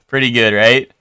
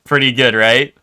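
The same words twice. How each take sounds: The two takes are said the same way.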